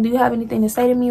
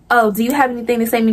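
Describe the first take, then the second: First: It is said in a calm, collected tone. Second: It is said in a confrontational, aggressive tone.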